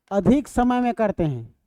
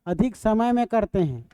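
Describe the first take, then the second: No difference in how they are said.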